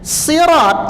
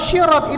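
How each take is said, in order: First: The word begins with an emphatic s sound. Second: The word begins with an sh sound. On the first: It means path or bridge. The speaker calls it right. "sirat itu artinya jalan" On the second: It means someone who sets conditions. The speaker calls it wrong. "kalau syirat itu artinya orang yang ngasih syarat"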